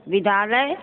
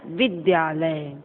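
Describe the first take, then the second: First: "विद्यालय" as vidaalay, no y; rising vi-daa-lay for "विद्यालय"; dropped y. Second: "विद्यालय" slowly, as vid-yaa-lay; slow, complete "विद्यालय"; full dy cluster. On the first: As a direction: leave out the y in "विद्यालय", ending on a rise. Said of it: "अशुद्ध, अशुद्ध". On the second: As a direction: sound the dy fully in "विद्यालय", falling. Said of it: "शुद्ध". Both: Shown as a demonstration.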